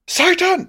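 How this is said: It is said in a high-pitched voice.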